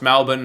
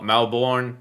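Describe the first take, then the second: First: It is said the Australian way. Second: It is said the American way. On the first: The speaker calls it right. "pronounced Melbourne" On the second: The speaker calls it wrong. "not Melbourne. That's probably more American"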